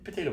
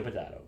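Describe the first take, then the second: First: "potato" with the long American A, po-TAY-to. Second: "potato" with a broad AH, po-TAH-to. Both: Shown as a demonstration. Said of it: "I mean, potato, potato".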